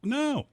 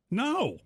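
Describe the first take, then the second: First: A very high, loud "No."; shocked denial. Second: Shocked denial. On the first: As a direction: shriek the word "No." in innocent outrage. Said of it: "N O". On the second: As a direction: squeak it out in disbelief. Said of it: "It's like". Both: Retold or imitated.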